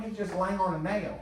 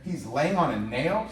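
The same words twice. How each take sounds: First: Slow, higher, matter-of-fact auntie voice; Auntie Deborah. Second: Slow, drawn-out incredulous question rising at the end; can't believe what he just heard; kid in disbelief. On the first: The auntie calmly explains the dog's trouble, slow and matter-of-fact. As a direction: state it like nothing's wrong. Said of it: "She goes". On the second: The boy repeats the auntie's words back to her, slow and incredulous. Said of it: "I go". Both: Retold or imitated.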